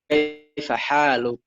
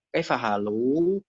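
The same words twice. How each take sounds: First: Kaifa haluk slow, with stressed long haa and short ending; correct long haa. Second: Kaifa halu slow, with the final luu dragged out; wrongly long ending. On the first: Showing native Arabic phrasing, haluk stressed on long haa. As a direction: lengthen ha in haluk, then finish short. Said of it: "itu jelas beda ya". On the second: Showing students the mistake, halu with overlong ending. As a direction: stretch the last vowel of halu. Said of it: "bukan kaifa halu". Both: Shown as a demonstration.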